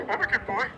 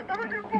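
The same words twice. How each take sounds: First: Said in the usual way. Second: Put-on much higher, softer childlike plea; pleading little boy. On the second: Kid begging mom not to eat his candy, high plea. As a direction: squeak it like a scared little kid.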